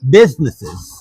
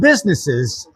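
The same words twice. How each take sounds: First: The s sounds are lisped, like th. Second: The s sounds are clear and crisp. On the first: "I had a lisp. So instead of businesses, I would say" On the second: "instead of"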